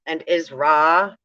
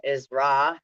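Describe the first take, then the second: First: "And Isra" slowed down, louder, rising like a question; question tune. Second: "Isra" with a rising question tune. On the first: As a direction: ask "Isra" as if it were a question, slowly. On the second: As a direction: lift the end of "Isra" like you're asking. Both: Shown as a demonstration. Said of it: "you say it like a question".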